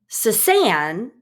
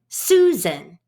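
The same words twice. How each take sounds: First: The stress is on the second syllable. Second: The stress is on the first syllable. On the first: The speaker calls it wrong. "if we put the stress on the second syllable" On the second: The speaker calls it right. "most names in English stress the first syllable"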